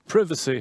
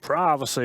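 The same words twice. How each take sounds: First: It is pronounced the British English way. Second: It is pronounced the American English way. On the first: "is better" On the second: "is how you would say it in America"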